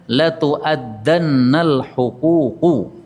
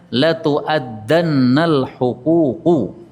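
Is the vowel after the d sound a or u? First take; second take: a; a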